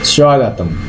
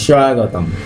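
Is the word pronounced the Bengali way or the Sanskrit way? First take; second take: Sanskrit; Sanskrit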